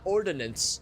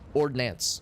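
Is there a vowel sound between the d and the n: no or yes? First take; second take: yes; no. First: A vowel is heard between the d and n. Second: No vowel is heard between the d and n. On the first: The speaker calls it wrong. "or not ordinance" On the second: The speaker calls it right. "Like no I"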